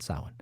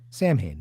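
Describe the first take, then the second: First: The name sounds like 'sow-in'. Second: The name sounds like 'sam-hane'. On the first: This is how the festival name is said. The speaker calls it wrong. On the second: This is how the band says its name. The speaker calls it right. "That's right"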